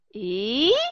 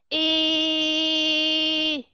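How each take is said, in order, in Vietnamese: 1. Cao độ đi lên qua nguyên âm. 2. Cao độ đi ngang qua nguyên âm. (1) "đi lên là như thế này" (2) "Còn đi ngang là như thế này"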